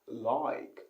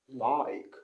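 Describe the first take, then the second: First: It has a Cockney accent with a stretched vowel. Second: The same.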